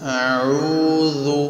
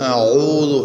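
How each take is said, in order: First: The word sounds light, with the tongue kept low. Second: The word sounds heavy, with the tongue raised back. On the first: The speaker calls it right. "നേർപ്പിച്ച് ശീലിക്കണം" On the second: The speaker calls it wrong. "ശബ്ദം മേലെണ്ണാക്കിലേക്ക് പോകുന്ന ഇസ്തിഅലാഓടുകൂടെ"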